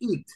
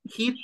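First: The word starts with a vowel sound. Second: The word starts with an h sound. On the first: The speaker calls it right. "just remember pronunciation" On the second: The speaker calls it wrong.

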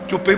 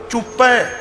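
First: The word ends in an 'e' vowel sound. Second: The word ends in an 'ai' vowel sound. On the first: The speaker calls it wrong. "ਚੁੱਪੇ ਪੜੀ ਜਾਂਦੇ" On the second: The speaker calls it right. "ਪੱਪੇ ਤੇ ਦੁਲਾਵਾਂ ਨੇ ਲਾਹ ਨਹੀਂ"

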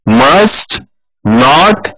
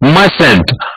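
First: It is said as two separate full words. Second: It is said as one contracted word. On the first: "मस्ट और नॉट को जब हम एक जोड़ेंगे" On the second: "तो क्या बनेगा, मसंट"

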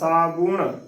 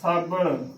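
First: An oo vowel is heard after the b. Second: No oo vowel is heard after the b. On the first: The speaker calls it right. "ਬੱਬੇ ਨੂੰ ਦਲੈਂਕੜ ਬੂ" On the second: The speaker calls it wrong. "ਸੋ ਇਹ ਵੀ ਇਸਦਾ ਗਲਤ ਉਚਾਰਨ ਹੈ"

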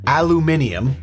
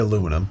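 First: It is said British style, with five syllables. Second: It is said American style, with four syllables.

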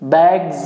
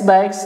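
First: The word ends with a buzzing z sound. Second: The word ends with a hissing s sound. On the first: The speaker calls it right. "ये भी आपका जेड है" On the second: The speaker calls it wrong. "बैग्स लोग कहते हैं, बैग्स भी नहीं होता है"

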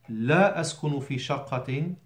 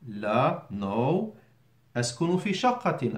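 First: It is said without a pause after لا. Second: There is a clear pause after لا.

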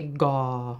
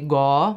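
First: The word is said on an extra low tone. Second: The word is said on a rising tone. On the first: It means the ground. "with an extra low tone" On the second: It means dry. "with a rising tone"

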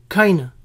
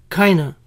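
No difference in how they are said.

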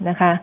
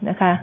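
Both takes have the same delivery.

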